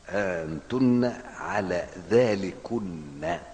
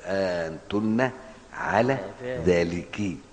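First: The last word ends with an n sound. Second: The last word ends in a short i vowel. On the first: This is the original full form. "ده الأصل" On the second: This is the shortened form used in the text. "فحذفت النون وكسرت الكاف"

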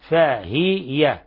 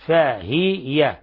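First: The h sound is followed by a vowel. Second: The h sound is followed by a vowel.

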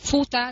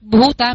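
First: It starts with a voiceless, aspirated p sound. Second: It starts with a voiced, breathy b sound. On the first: The speaker calls it wrong. "mình đọc Phuta thì nó ra chữ pơ và chữ hơi" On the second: The speaker calls it right. "mình phải đọc Bhuta mới đúng"

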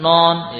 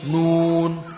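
First: The vowel is an open o sound. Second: The vowel is a full rounded oo sound. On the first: The speaker calls it wrong. "bukan non ya" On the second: The speaker calls it right. "Ayo sempurnakan tomahnya"

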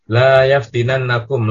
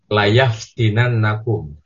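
First: The first vowel is held long. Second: The first vowel is cut short. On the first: It forbids the action: do not let it happen. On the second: It affirms the action: it will surely happen.

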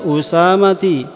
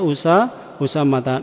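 First: The word ends with an 'i' vowel. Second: The word ends with an 'a' vowel. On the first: The speaker calls it wrong. "enggak boleh dibaca Usamati" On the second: The speaker calls it right. "dia malah fathah ya, dibaca Usamata"

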